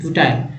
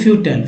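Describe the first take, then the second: First: The last syllable has an 'eye' vowel. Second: The last syllable has a short, reduced vowel. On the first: The speaker calls it wrong. "फ्यूटाइल नहीं, लोग फ्यूटाइल ही पढ़ देंगे ना" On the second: The speaker calls it right. "लेकिन फ्यूटल"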